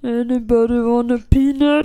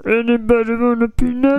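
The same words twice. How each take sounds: First: Andre the Giant voice. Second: Kermit voice. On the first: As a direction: rumble it like a gentle giant. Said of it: "Do the line". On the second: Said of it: "That was Kermit". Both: Retold or imitated.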